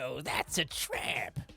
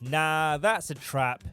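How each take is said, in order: First: It is said in a sly, weaselly put-on voice. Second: It is said in the narrator's own voice.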